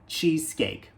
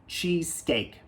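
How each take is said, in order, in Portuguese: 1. Termina limpo, no som do k. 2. Termina limpo, no som do k.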